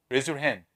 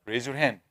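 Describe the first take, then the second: No difference in how they are said.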